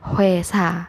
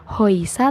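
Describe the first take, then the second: First: The first syllable is said as h-w-e. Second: The first syllable is said as h-o-i. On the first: The speaker calls it right. "tapi jadinya huesa" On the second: The speaker calls it wrong. "Jadi bukan hoisa"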